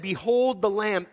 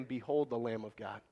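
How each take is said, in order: First: Louder and higher, slow and ringing; proclaimed behold. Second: Much softer and lower, reverent hush; hushed behold. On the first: John the Baptist announcing Jesus to the crowd, slow ringing proclamation. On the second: Preacher quoting John to the congregation, hushed and reverent. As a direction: breathe it like a sacred secret. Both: Shown as a demonstration. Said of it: "when he said".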